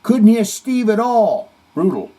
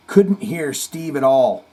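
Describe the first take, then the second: First: Reading a comment. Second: Said in the usual way. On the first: Retold or imitated. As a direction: boom the comment out.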